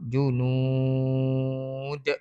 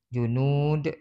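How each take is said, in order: First: The last vowel is held for six beats. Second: The last vowel is held for two beats. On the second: "dua harakat"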